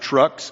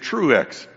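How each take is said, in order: First: The name has a short uh vowel. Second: The name has an oo vowel then eh. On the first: The speaker calls it wrong. "it is not Trux" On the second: The speaker calls it right. "it is Truex"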